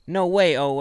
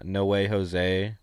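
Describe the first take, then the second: First: Jose is said without its first consonant. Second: Jose is said with its first consonant. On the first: "the way she says it, she says no way Owe" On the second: "she tries to say like uh no way Jose"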